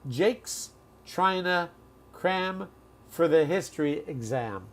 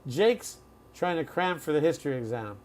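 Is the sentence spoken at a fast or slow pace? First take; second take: slow; fast. First: The sentence is spoken slowly, keeping the reductions. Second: The sentence is spoken at a natural, fast pace. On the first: "I'll slow it down, but I'll still use the reductions" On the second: "Here's how we would say it"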